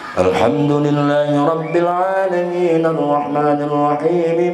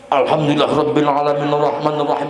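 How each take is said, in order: First: It is recited slowly and evenly. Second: It is recited quickly and rushed. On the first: The speaker calls it right. "Tapi jangan ngebut-ngebut, biasa saja. Murotal ngebacanya" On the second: The speaker calls it wrong. "Sing aneh sing sebelah kaget coy"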